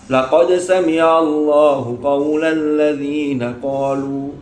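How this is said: It stops and takes a breath after qalu. The following words sound like the reciter's own claim. The speaker calls it wrong. "moro-moro mandek. Ambil nafas"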